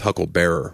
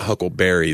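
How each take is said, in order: First: The word ends with the sound 'bearer'. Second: The word ends with the sound 'berry'. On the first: It names someone who carries a coffin. The speaker calls it right. "it's Hucklebearer, which is like a pallbearer" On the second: It names the fruit. The speaker calls it wrong. "not Huckleberry that he's saying"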